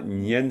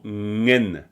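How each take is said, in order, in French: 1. La syllabe commence par un son ny. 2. La syllabe commence par un son ng. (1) "c'est pas nien" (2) "c'est vraiment ngen"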